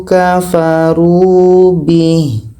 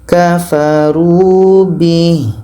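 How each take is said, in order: No difference in how they are said.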